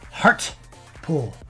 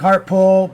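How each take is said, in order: First: The T in heart is clearly pronounced. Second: The T in heart is soft and unclear. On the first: "Gotta say the T" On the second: "People think I say hard pull"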